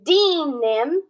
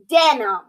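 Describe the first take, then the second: First: The first vowel sounds long. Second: The first vowel sounds short. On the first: The speaker calls it wrong. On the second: The speaker calls it right. "it's denim"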